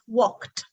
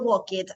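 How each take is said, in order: First: The ending is a single t sound. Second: The ending is an extra syllable. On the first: The speaker calls it right. "but it's walked" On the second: The speaker calls it wrong. "Y nada de walk it"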